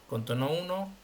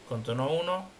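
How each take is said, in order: No difference in how they are said.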